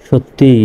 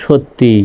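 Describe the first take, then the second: The two takes are said the same way.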